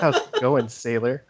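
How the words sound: It is said in a seductive way.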